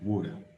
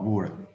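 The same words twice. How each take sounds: First: The middle T sounds like a D. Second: The middle T sounds like an R. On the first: "pronounce it like a D" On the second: "or even R, another R"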